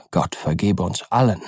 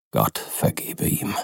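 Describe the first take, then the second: First: Ernst, ruhig und gemessen ausgesprochen; feierlich. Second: Langsam, tief und leise gehaucht; feierlich geflüstert. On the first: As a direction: ein ernstes Schlusswort, gefasst. (Utterson spricht zu Enfield feierlich und gemessen) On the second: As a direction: ein ehrfürchtiges, leises Gebet. (Utterson flüstert nach dem Schrecken feierlich) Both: A narrator's reading. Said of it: "sagte der Advokat feierlich".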